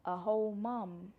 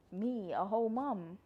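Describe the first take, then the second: First: Slower, savoring A whole mum in wonder; awed, slowed echo of the words; amazed disbelief. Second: Said in the usual way. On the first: Real, not acted. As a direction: let A whole mum sink in, slowly. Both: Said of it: "That sounds crazy when I say it out loud".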